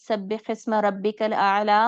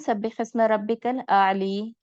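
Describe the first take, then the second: First: The last word ends in a long 'aa' vowel. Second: The last word ends in a long 'ee' vowel. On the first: This is how it is usually recited. "हम पढ़ते हैं ना" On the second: This is how it is recited in Africa. "आला को आली पढ़ते हैं"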